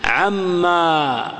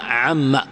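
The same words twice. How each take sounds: First: "عما" very slow, final aa drawn out; long final alif. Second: "عما" with a short final a; alif dropped. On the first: Teacher showing the wrong spelling, long aa. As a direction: stretch the last vowel of "عما" long. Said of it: "ما تكتب". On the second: Teacher showing the right spelling, short a. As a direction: end "عما" short, low, no long vowel. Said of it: "تحذف الألف". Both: Shown as a demonstration.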